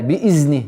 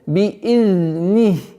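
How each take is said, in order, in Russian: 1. Средний согласный звучит как простой z. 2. Средний согласный звучит как мягкий dh. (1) "чтобы звук заль не перешло э, ... в звук зай" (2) "Нет"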